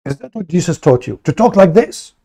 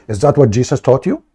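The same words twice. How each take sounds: First: Faster and rising higher, mock outraged; hammed-up scolding, climbing up. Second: Said in the usual way. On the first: Streamer mimics Muslims scolding him for "this", mock outrage. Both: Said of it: "They say to you".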